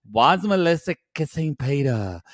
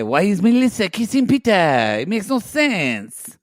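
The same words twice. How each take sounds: First: Badly faked French accent, half-hearted; lightly put-on accent, barely French; attempted French accent. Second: Hammed-up French accent, higher pitched. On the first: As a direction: make a weak stab at a French accent. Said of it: "Is that your French accent?". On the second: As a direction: imitate a Frenchman with a cartoonish lilt. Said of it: "I forgot he was French".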